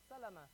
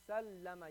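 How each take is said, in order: First: The middle l sound is short. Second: The middle l sound is held long. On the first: "No shadda on it" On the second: "You hold that lam sound"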